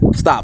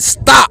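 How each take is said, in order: First: It is said calmly, without a raised voice. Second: It is said loudly, with a raised voice. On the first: The request can be ignored. The speaker calls it wrong. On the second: The speaker's emotion has changed and means it. The speaker calls it right.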